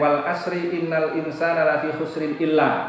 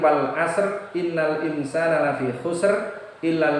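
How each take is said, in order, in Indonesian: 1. Akhir ayat membawa vokal dan langsung tersambung. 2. Akhir ayat berhenti pada bunyi r mati. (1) "bukan salah ya, kurang tepat" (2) "Itu yang paling tepat tidak begitu, tetapi"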